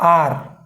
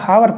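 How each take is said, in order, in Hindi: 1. इस शब्द की शुरुआत स्वर से होती है, इसमें h नहीं है। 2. इस शब्द की शुरुआत 'h' की आवाज़ से होती है। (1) "इसमें एच साइलेंट रहता है" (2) "कुछ बच्चे इसको हावर पढ़ते हैं, दैट इज नॉट राइट"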